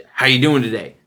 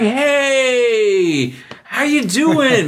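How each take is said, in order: First: Said in the usual way. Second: Much higher, drawn-out, gushing hello; schmoozy coworkers. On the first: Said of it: "I went in there with this guy and I asked him". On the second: Retold or imitated. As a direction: ham up an overly friendly greeting. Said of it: "They're like".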